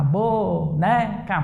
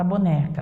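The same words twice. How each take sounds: First: "boneca" stretched into three hopping beats; syllable by syllable. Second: Said in the usual way. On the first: Shown as a demonstration. Teacher playing hopscotch to count syllables, "boneca" split into beats. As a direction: hop slowly through each syllable of "boneca". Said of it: "pulou três casinhas". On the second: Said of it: "pra falar da palavra boneca".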